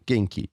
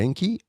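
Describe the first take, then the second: First: The pitch falls at the end. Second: The pitch rises at the end. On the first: It answers that one is fine. "a falling inflection" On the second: It asks how the other person is. "a rising inflection"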